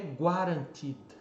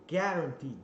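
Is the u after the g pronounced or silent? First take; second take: pronounced; silent. First: The u after the g is pronounced. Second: The u after the g is silent. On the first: The speaker calls it wrong. "Então não é guaranteed" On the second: The speaker calls it right. "é guaranteed"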